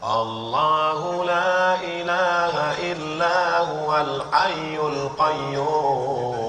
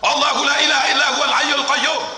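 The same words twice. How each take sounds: First: It is recited softly and quietly. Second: It is recited loudly and forcefully.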